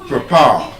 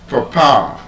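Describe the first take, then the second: First: The first syllable has a weak schwa vowel. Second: The first syllable has a weak schwa vowel.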